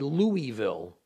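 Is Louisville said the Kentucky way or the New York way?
New York. It is said with a New York pronunciation. "In New York, people might say Louisville"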